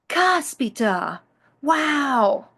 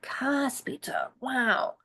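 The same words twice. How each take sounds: First: It sounds impressed and surprised. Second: It sounds frustrated, with a sigh.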